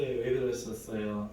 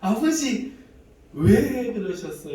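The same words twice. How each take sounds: First: Said in the usual way. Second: Much louder, higher, slow anguished plea; loud pleading cry. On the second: Retold or imitated. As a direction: cry out to the Father, slowly. Tearful plea to God.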